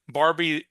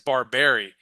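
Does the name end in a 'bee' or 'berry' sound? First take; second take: bee; berry. First: The name ends with a short 'bee' sound. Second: The name ends with a longer 'berry' sound. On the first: The speaker calls it wrong. "I keep saying Barbie" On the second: The speaker calls it right. "But it's Barberry"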